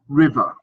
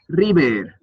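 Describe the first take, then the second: First: The ending is a short, weak schwa. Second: The ending sounds Spanish, with a full vowel. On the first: The speaker calls it right. "you pronounce that schwa at the end" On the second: The speaker calls it wrong. "it sounded quite Spanish"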